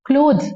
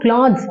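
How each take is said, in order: First: The vowel is a long 'oh' sound. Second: The vowel is a short 'a' sound. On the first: The speaker calls it right. "க்ளோத்ஸ் அப்படிதான் சொல்லணும்" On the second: The speaker calls it wrong. "கிளாத்ஸ் அப்படின்னு சொல்லக்கூடாது"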